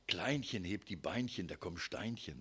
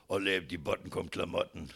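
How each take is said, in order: First: Dainty, cutesy little rhyme; sweet diminutive rhyme. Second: Put-on blunt, louder old-couple version; mock weary crudeness; gruff coarse rhyme. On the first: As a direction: say it like tender young love. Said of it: "die Liebe ist so, wenn man so ganz frisch verliebt ist". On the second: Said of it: "dann heißt es nur noch". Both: Shown as a demonstration.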